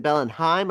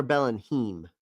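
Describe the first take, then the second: First: Bellenheim, last syllable rhyming with "rhyme"; Bellenheim with "-hime". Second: Bellenheim, last syllable rhyming with "seem"; Bellenheim with "-heem". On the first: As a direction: say Bellenheim ending like "time". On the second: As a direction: say Bellenheim ending like "team". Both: Shown as a demonstration. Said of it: "Is it Bellenheim or Bellenheim".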